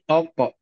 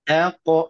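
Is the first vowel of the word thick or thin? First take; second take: thick; thin. First: The first vowel is heavy and thickened. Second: The first vowel is light and thin. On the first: The speaker calls it wrong. "Jangan terpengaruh menjadi Alqa" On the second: The speaker calls it right. "Tipis dulu, baru pindah kepada tebal"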